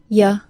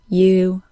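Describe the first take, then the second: First: The word is said in a reduced form. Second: The word is said in its full form. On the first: "Reduced forms are sometimes shown second and sound like" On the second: "when I say them in isolation, I say their full citation form"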